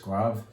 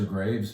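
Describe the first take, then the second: First: The final S sound is silent. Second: The final S sound is pronounced. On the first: The speaker calls it right. "you don't say the S at the end" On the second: The speaker calls it wrong. "it looks like Graves"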